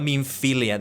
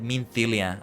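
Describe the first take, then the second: First: The middle consonant is a plain f sound. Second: The middle consonant sounds like a th. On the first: "So not Minfilia" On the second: "as if it were T H instead of F"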